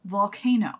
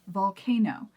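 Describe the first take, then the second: Both takes have the same delivery.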